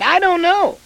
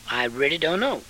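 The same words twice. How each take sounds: First: High, loud cry of not knowing; exclaimed. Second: Said in the usual way. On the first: Acted. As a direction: throw "I don't know." up high and loud.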